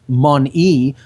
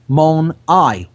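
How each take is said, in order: First: The word ends with an 'ee' sound. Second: The word ends with an 'eye' sound. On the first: This is the everyday pronunciation. "We just pronounce it" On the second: This shows the claimed hidden meaning, one eye. "but it's mon-I, one eye"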